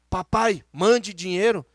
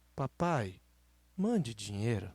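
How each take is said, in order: First: It sounds rude and demanding. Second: It sounds gentle and polite.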